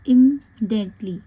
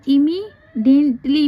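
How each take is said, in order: First: The vowel after 'imm' is left out. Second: The vowel after 'imm' is clearly pronounced. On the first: "ई silent भी होता है" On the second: "आप चाहें तो इसे ई भी पढ़ सकते हैं"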